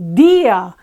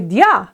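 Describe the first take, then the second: First: The stress falls on the i. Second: The i glides into a stressed a. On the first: The speaker calls it right. "the weak syllable, that's accentuated" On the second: The speaker calls it wrong. "they don't say dia"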